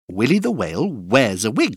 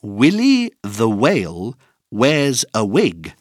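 First: The sentence is said at a fast pace. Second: The sentence is said at a normal pace.

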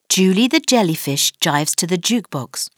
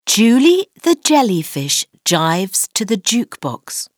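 First: The sentence is spoken at a fast pace. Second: The sentence is spoken at a normal pace.

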